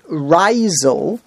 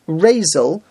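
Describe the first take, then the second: First: The first vowel is a patach sound. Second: The first vowel is a tsere sound. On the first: The name is spelled with two Yuds. "they pronounce it Reisel with a patach" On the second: The name is spelled with one Yud. "if it's pronounced Razel with a tsere under the Reish"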